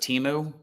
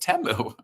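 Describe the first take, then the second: First: The name has an Americanized pronunciation. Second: The name has a non-Americanized pronunciation. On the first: The speaker calls it wrong. "we would probably say that in a, an Americanized version of it" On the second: The speaker calls it right. "now we learned how to say the name properly"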